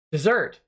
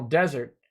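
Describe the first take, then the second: First: "dessert" stressed on the second syllable, dih-ZERT; fixing it to "dessert", the sweet course, stress at the end; corrected to dessert. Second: "desert" stressed on the first syllable, DEZ-ert; reading "desert" like the sandy wasteland, stress up front; misread desert. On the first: Correcting his misreading of the viewer's message, "dessert" stressed at the end. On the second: Reading a chat message aloud, says "desert" stressed on the first syllable. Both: Real, not acted.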